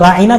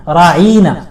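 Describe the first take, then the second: First: The word is said short, without stretching. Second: The word is stretched out and drawn long. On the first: A polite request for attention. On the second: It insults him by calling him a shepherd.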